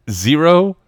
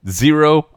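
The two takes are said the same way.

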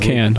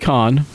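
First: The word sounds like English 'can'. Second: The word sounds like English 'con'. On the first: The speaker calls it right. "It's Cannes" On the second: The speaker calls it wrong. "Don't say con"

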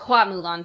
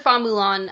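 First: The surname is pronounced 'hua'. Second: The surname is pronounced 'fa'. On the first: The speaker calls it right. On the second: The speaker calls it wrong.

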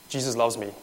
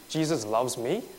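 First: It is said casually, without much joy. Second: It is said with amazed disbelief.

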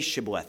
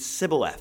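First: The word begins with an sh sound. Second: The word begins with an s sound. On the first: "these Ephraimites couldn't say shibboleth" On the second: "They ended up saying sibboleth"

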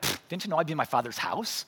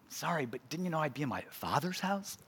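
First: It is said in a smart-aleck, sarcastic tone. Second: It is said in a gentle, apologetic tone.

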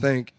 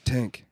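First: The th is said as a normal th sound. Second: The th is said as a plain t sound. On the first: The speaker calls it wrong. "it's not think" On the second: The speaker calls it right. "it's tink"

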